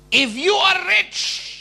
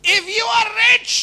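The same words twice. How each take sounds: First: Drawn out, higher, louder; preacher switches to English, slow and grand; slow preacher's English. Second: Higher and louder flourish; preacher repeats English line, higher and louder; grand preacher's English. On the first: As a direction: stretch each word like a pulpit flourish. Slow English mock sermon line. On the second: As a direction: proclaim it to the room. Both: Acted.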